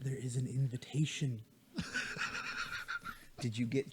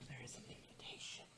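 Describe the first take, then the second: First: Low, soft and close; soft close-mic voice. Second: Breathy whisper into the mic. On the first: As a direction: lean in and say it softly. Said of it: "grab my mic and lean it in". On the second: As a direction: whisper it like a secret. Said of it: "I was whispering sweet nothings". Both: Acted.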